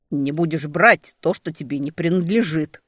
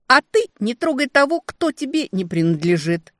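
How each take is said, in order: First: Growled. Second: Loud, higher snarling retort; growling back. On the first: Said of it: "рыкнул он". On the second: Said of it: "Я тоже рычать умею". (громкий рык в ответ, выше) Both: A narrator's reading.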